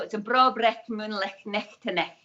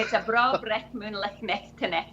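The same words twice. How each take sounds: First: Broad Scottish accent with rolled vowels; thick Scottish accent. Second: Thick Scottish accent. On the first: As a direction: say it like a true Edinburgh Scot. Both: Shown as a demonstration. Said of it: "I can put on the thick Scottish accent".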